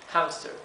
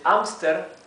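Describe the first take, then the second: First: The word starts with a breathy H sound. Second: The word starts with no H sound. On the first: "with an ex exhaled H" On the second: "with a mute H"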